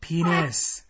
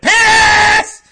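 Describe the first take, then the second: First: The word is said at a quieter volume. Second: The word is said at a louder volume.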